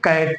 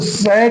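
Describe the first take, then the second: First: The word begins with a k sound. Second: The word begins with an s sound. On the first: The speaker calls it right. "बल्कि हम क्या पढ़ेंगे? कैट पढ़ेंगे" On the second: The speaker calls it wrong. "सैट नहीं पढ़ेंगे"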